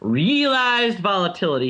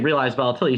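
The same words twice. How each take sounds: First: The first syllable of realized is heavily stressed. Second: The first syllable of realized is lightly stressed. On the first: "He always really puts that stress in that first syllable" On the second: "he doesn't say realized volatility"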